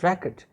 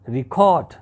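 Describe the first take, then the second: First: The stress is on the first syllable. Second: The stress is on the second syllable. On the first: The word is used as a noun. "The stress will be on the first syllable" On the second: The word is used as a verb. "the stress will be on the second syllable, it will be record"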